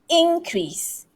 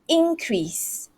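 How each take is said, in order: Both takes have the same delivery.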